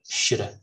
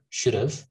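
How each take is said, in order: First: The word 'have' is reduced and weak. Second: The word 'have' is said fully and clearly. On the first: "we use the um, um, weak form of have" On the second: "You can say should have, should have. That's also good"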